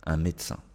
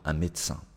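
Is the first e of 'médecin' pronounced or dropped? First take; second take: dropped; dropped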